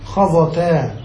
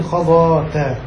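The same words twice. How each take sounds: First: خضتا with a short middle vowel, khaẓatā; short a before the final tā in خضتا; without the alif. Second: خضاتا with a long middle ā, khaẓātā; long ā before the final tā in خضاتا; alif kept. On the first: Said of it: "بدون ألف". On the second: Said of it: "فأثبتت الألف هنا". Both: Shown as a demonstration.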